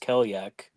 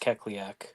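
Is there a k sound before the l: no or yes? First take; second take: no; yes. First: The name has no k sound before the l. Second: The name has a k sound before the l. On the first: The speaker calls it wrong. "she keeps referring to her as Kelyak" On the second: The speaker calls it right. "We all know it's Kekliak"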